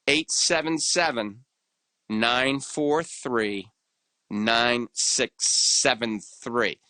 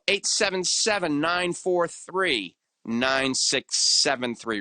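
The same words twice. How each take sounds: First: The number is said more slowly. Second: The number is said at normal, quicker speed.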